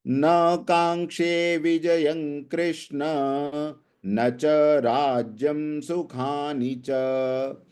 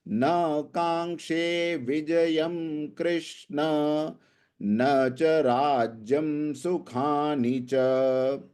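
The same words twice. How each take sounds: The two takes are said the same way.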